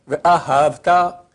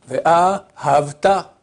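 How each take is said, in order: Both takes have the same delivery.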